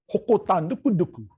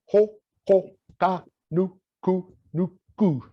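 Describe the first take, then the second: First: Said in the usual way. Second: Slow, wide-mouthed "Hoko tā nuku nuku" with every syllable stretched; "Hoko tā nuku nuku" said slowly, big mouth on every vowel; overemphasized. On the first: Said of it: "And the same with the next word". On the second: Shown as a demonstration. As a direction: open the mouth wide and exaggerate each sound of "Hoko tā nuku nuku". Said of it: "wide mouth frog is where you overemphasize".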